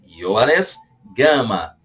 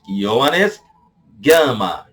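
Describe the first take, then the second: No difference in how they are said.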